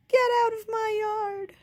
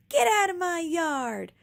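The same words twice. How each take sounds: First: Put-on higher, louder shout, as told by Baby; Baby imitates her sister yelling; retold shout. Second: Higher, louder angry shout. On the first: Baby retelling her sister yelling at the pig, imitated shout. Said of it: "she was shouting". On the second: A narrator's reading. Eugenia shouting as she chases the pig, angry shout. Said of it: "shouted Eugenia".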